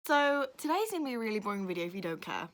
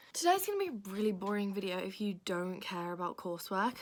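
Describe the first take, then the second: First: Rough, hoarse delivery; scratchy throat pushing through; raspy voice. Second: Said in the usual way. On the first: Real, not acted. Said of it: "raspy voice".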